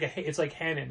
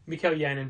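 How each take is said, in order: First: The name begins with an h sound. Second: The name begins with a y sound. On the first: "It's like a H sound" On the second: "we would say Mikkel Yannon"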